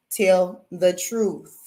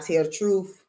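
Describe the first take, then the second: First: "Tell the truth" very slow, each word set apart and weighted; slow emphatic repeat. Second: Said in the usual way. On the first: Shown as a demonstration. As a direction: lay "Tell the truth" down slowly like a final word.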